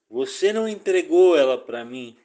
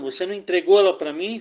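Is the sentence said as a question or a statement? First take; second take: statement; question. First: It is said with flat statement intonation. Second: It is said with question intonation. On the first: It asserts that the life was not handed over. The speaker calls it wrong. "perdão pelo erro da entonação aqui" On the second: It asks whether the life was handed over. The speaker calls it right. "corrigindo aqui. É uma indagação"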